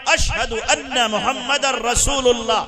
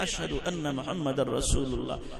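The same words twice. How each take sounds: First: It is said loudly and strongly. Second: It is said quietly and softly.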